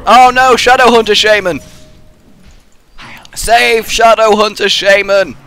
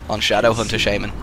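First: Panicked shout. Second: Said in the usual way. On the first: Real, not acted. Panicked call for teammate.

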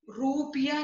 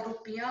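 First: रुपया opening on long "roo"; wrong long vowel. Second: Said in the usual way. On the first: Shown as a demonstration. Teacher correcting a mistake, रुपया with long roo. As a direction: draw out the u of रुपया. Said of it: "नहीं होता". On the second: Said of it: "होता है".

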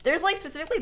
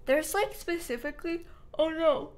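First: Said in the usual way. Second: Higher voice stretched by a yawn; talking through yawn. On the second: Real, not acted. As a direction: let a real yawn take over mid-sentence. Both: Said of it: "I keep yawning".

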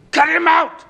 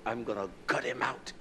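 First: Sudden high, loud shout of the threat; a furious preacher's shout. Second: Quiet retold threat. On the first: Acted. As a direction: bellow it out in anger. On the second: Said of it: "I said it that way".

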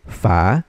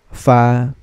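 First: "fa" starting low and rising; second tone. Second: "fa" held on one level pitch; first tone. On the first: Teacher drilling learners in second tone, "fa" rising. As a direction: glide "fa" upward from low. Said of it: "read this in the second tone". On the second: Teacher drilling learners in first tone, "fa" held level. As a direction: sustain "fa" evenly, no rise or fall. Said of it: "practicein natin si first tone muna". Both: Shown as a demonstration.

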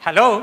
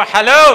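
First: Said in the usual way. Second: Loud, rousing call to the crowd; louder hello. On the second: Shown as a demonstration. (ഉറക്കെ വിളിച്ചു പറയുക) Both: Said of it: "ഇച്ചിരി ഉറക്കെ പറയാവോ".

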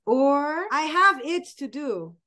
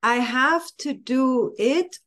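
First: 「I have it to do」のitを伸ばし気味に; gentle, open reading with it held; lighter have it to do. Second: 「I have to do it」のhaveを強く上げる; stress on have. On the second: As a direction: push have, the chore version. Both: Shown as a demonstration. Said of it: "putting the emphasis on the doing".

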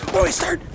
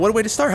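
First: High, squeaky cry; high-pitched exclamation. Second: Said in the usual way. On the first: Pretend. Gamer exclaiming as the match starts, high squeal. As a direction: repeat it in a squeal. Mock battle cry as game begins.

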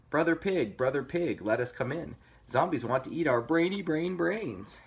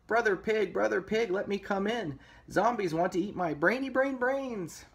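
First: Lightly voiced piggy plea; a mild, higher-pitched appeal; pleading little pigs. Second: High, squeaky-pitched piggy plea; pleading little pig. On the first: Two pigs asking brother for shelter, mild plea. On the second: Pig begging brother to escape zombies, high pleading voice. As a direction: beg to be let in, pitched way up. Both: A narrator's reading.

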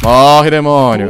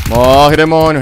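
First: Loud and slow, each word dragged; slow drawn-out battle shout. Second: Loud, high, fast war cry; battle shout. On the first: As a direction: stretch out the war cry. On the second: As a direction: scream it while firing. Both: Real, not acted. Shooting at enemies.

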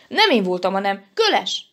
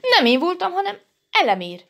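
First: Louder denial at ordinary pitch; defensive denial. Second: High, louder squeal of blame; high-pitched, hasty protest; defensive denial. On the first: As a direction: push the blame on, firmly. Elemér passes on the blame. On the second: Dinnye passes on the blame. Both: A narrator's reading.

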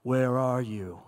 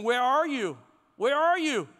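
First: Very low, measured God voice. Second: Raised, louder searching call; calling for attention. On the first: God calling to Adam and Eve in hiding, deep voice. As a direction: drop way down into a booming-deep divine voice. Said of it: "you hear this voice". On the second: God calling to get our attention, calling out. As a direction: call it out twice, pitched up. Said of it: "God is trying to get our attention". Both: Acted.

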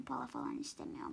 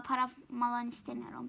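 First: Whisper. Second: Said in the usual way. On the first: Shown as a demonstration. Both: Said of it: "repeats line in different ways".

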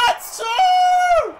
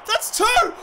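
First: Very high, loud, drawn-out "two"; elated shriek. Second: High, thrilled goal call; excited cry. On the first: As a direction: squeal it in triumph, holding the last word. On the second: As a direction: announce the goal with a high cheer. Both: Real, not acted.

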